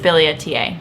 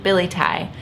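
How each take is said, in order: First: The word ends with a longer, different ending. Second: The word ends with a short 'tie' sound. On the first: The speaker calls it right. "but I think it's Biliaceae" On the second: The speaker calls it wrong. "I've always pronounced it Billy-tie"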